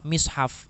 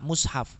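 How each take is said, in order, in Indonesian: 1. Vokal pertama adalah bunyi i depan. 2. Vokal pertama adalah bunyi u yang membulat. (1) "menggunakan kasroh" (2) "menggunakan dhammah"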